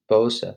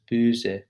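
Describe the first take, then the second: First: "Bose" with a plain long o, no umlaut; Bose without umlaut. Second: "böse" with rounded umlaut ö, said slowly. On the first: Teacher contrasts "Bose" without the umlaut. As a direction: say "Bose" as if the o had no two dots. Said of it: "it would be pronounced". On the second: Teacher shows how the two dots change "böse". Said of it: "the two dots make it". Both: Shown as a demonstration.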